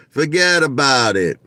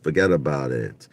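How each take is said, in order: First: "Forget about it" pitched up high and punched; big, exclaimed "Forget about it"; emphatic repeat. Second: Said in the usual way. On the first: Real, not acted. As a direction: hit "Forget about it" hard, then let it fall.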